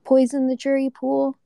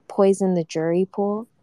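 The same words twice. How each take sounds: First: Higher-pitched rhetorical question; incredulous retort. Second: Quoting other people's mild worry; retold objection. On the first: Real, not acted. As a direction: throw the objection back, pitched high. Throws the objection back at them. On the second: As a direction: relay the worry as a tentative question. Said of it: "And, like, people are like".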